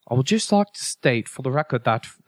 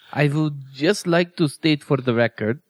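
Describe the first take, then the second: First: It is read in a mock British accent. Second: It is read in a mock Russian accent.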